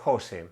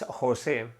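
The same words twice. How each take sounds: First: The stress is on the first syllable. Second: The stress is on the second syllable. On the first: This is the form the speaker usually uses. "But I do usually say" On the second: This is the name's original form. "with the accent on the second part"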